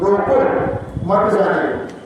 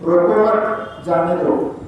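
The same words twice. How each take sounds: First: The pause comes after 'roko'. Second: The pause comes after 'mat'.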